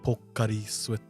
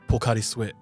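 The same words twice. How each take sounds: First: It is said slowly with every vowel said clearly. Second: It is said quickly with the vowels run together. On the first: Listeners understand the name. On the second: Listeners do not understand the name.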